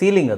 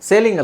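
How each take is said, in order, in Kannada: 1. ಮೊದಲ ಸ್ವರ 'ee' ತರಹ ಉಚ್ಚಾರವಾಗುತ್ತೆ. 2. ಮೊದಲ ಸ್ವರ 'ay' ತರಹ ಉಚ್ಚಾರವಾಗುತ್ತೆ. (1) "ಸೀಲಿಂಗ್ ಅದು" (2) "ಸೇಲಿಂಗ್ ಅಲ್ಲ"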